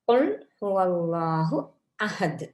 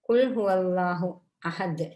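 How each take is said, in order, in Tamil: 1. முதல் மெய்யெழுத்து தொண்டையின் ஆழத்தில் உருவாகிறது. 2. முதல் மெய்யெழுத்து இன்னும் முன்னால் உருவாகிறது, k போல. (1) "கா தொண்டை குழியால வர மாதிரி உச்சரிக்க வேண்டும்" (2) "நன்றாக உச்சரித்து ஓதாவிட்டால்"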